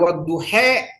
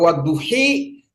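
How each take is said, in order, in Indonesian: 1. Vokal akhirnya e condong. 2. Vokal akhirnya i jelas. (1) "kalau dia imalah" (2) "kalau dia kasroh"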